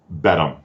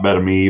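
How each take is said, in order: First: The name ends with a short 'um' sound. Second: The name ends with an 'ah-mee' sound. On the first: The speaker calls it right. "I would say Bedham" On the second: The speaker calls it wrong. "not Bedami"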